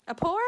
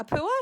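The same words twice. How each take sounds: First: "Apua" attempted with an "aw" sound, questioning; second tentative pronunciation. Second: "Apua" attempted with an "oo" sound, questioning; tentative pronunciation. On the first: Reading an unfamiliar shell name, "Apua" said tentatively with "aw". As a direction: try "Apua" as a-PAW-a, unsure. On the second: Reading an unfamiliar shell name, "Apua" said tentatively with "oo". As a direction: try "Apua" as a-POO-a, unsure. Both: Real, not acted. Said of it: "I will still not say it right".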